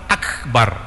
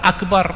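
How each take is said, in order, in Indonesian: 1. Bunyi k ditahan tanpa memantul. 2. Bunyi k memantul seperti gema. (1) "jangan sampai dibaca qalqalah" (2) "akbar itu salah, bukan akbar"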